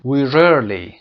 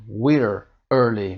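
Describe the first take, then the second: First: An R sound links the two words together. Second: The two words are said without a linking R. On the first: The speaker calls it right. "میگیم we rarely" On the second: The speaker calls it wrong. "اینجا ما نمیگیم we're early"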